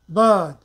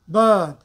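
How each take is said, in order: No difference in how they are said.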